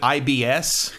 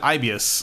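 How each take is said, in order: First: The name sounds like the letters I-B-S. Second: The name is said as one full word. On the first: The speaker calls it wrong. "some of the voice actors pronounce it IBS" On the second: The speaker calls it right. "you're supposed to pronounce it Ibius like that"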